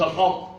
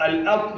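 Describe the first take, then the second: First: الأط with a dark, backed "a"; wrongly heavy hamza. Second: الأط with thin "a" before emphatic ط; light hamza, heavy ط. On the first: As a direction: thicken the hamza of الأط by mistake. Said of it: "لا، الهمزة مرققة". (الأط بتفخيم الهمزة خطأً) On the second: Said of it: "الهمزة مرققة، الطاء مفخمة". (الأط بترقيق الهمزة وتفخيم الطاء) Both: Shown as a demonstration.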